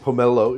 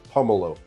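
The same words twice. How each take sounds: First: The stress is on the second syllable. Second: The stress is on the first syllable. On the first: The speaker calls it wrong. "You're saying pomelo" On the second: The speaker calls it right. "it's pomelo"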